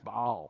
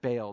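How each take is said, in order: First: The word has a glottal stop inside it. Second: The word has no glottal stop inside it. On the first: This is the original pronunciation. "There's actually a glottal stop in there. It's Baal" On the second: This is how most people say it. "everybody says it Baal"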